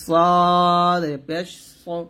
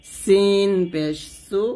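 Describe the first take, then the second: First: সদ পেশ সু very slow, thick and full; heavy sad. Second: সিন পেশ সু slow, thin and light; light seen. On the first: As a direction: let সু sound heavy. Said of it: "সদের একটা গ্রাম নিয়ে আসবেন". (মোটা করে সদ পেশ সু) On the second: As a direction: stretch সু thin. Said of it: "সিন পাতলা". (পাতলা করে সিন পেশ সু) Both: Shown as a demonstration.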